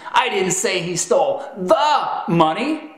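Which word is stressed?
the. The word 'the' is stressed. He stole some other money, not that money. "The emphasis on the is communicating that you didn't say he stole that money"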